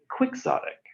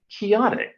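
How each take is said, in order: First: The middle consonant sounds like ks. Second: The middle consonant sounds like an h. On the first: It is the usual way the word is said. "instead of quixotic" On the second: It follows how the character's name is said. "why don't you say chaotic"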